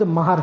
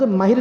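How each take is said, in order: First: The vowel after the h sound is 'a'. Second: The vowel after the h sound is 'i'. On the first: The speaker calls it right. "लफ्ज महर है। मीम के ऊपर भी जबर है, हा के ऊपर भी जबर है" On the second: The speaker calls it wrong. "लफ्ज माहिर नहीं"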